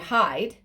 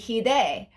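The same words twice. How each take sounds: First: The name is said with an English pronunciation. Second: The name is said with a Spanish pronunciation. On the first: "in English it would be hide" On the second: "in Spanish it would be hide"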